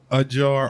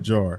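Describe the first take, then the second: First: "A" is set apart from "jar." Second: "A" runs straight into "jar." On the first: A glass container. ""uh" by itself, then jar" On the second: Slightly open. "the word ajar"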